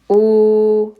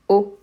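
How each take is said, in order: First: The vowel is held long. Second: The vowel is cut short. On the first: "O long" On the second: "O short"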